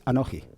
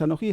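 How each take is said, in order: First: "anoji" stressed before the last syllable, on "no"; "anoji" as it closes a phrase, unstressed falling "ji"; phrase-final stress. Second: "anoji" rising onto a stressed "ji"; "anoji" as it starts a phrase, stressed on "ji"; stress on last syllable. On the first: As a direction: say "anoji" with weight on "no", falling away on "ji". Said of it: "cuando finaliza una frase, no es anoji, es anoji". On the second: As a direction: put the accent of "anoji" on the final "ji". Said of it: "Es la última sílaba donde recae el acento". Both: Shown as a demonstration.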